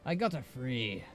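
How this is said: It is spoken in a put-on troll voice. The speaker calls it right. "when you do a troll voice, it's like, you gotta be like Vol'jin"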